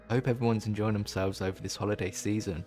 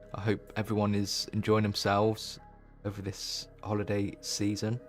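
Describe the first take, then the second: First: It is said in a gentle, friendly tone. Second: It is said in a harsh, aggressive tone. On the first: The speaker calls it right. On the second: The speaker calls it wrong.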